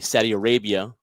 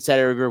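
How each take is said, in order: First: The words are spoken clearly and distinctly. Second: The words are slurred and mumbled together. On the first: The speaker calls it right. "let me say it correctly" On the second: The speaker calls it wrong. "not mutter my words there"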